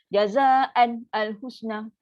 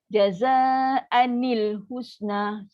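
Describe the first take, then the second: First: The n is not linked with an i vowel. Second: The n is linked with an i vowel. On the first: The speaker calls it wrong. "Kenapa je tu salah tu?" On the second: The speaker calls it right. "So dia kena tukar dulu"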